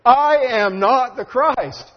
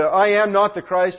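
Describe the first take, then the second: First: "I am not the Christ" slow, high and weighty, each word stressed; emphatic declaration. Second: "I am not the Christ" quoted briskly, with NOT punched; stress on NOT. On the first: Preacher voices John telling his disciples again, emphatic declaration. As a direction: draw out "I am not the Christ", raised and forceful. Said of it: "it's emphatic". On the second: Preacher quotes John's denial to the congregation, stress on NOT. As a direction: quote it quickly, leaning on "not". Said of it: "It's, it's emphatic". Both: Retold or imitated.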